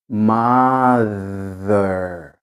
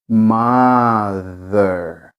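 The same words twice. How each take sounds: Both takes have the same delivery.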